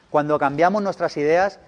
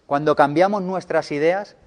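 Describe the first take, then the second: No difference in how they are said.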